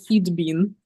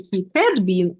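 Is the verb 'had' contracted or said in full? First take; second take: contracted; full. First: 'Had' is contracted onto 'he' as he'd. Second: 'Had' is said in full as a separate word. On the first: The speaker calls it right. "it's more natural to use short forms" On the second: The speaker calls it wrong. "so I don't have to say he had"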